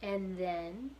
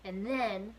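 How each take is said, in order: First: Roscuro's gentle coaxing "And then" with a rise; encouraging. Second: Prisoner's louder halting "And then"; the man stalls before the worst part; prisoner hesitating. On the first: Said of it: "encouraged Roscuro". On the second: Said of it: "said the man". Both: Acted.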